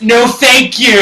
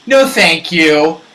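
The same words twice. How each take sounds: First: It is said in a curt, blunt tone. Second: It is said in a polite tone.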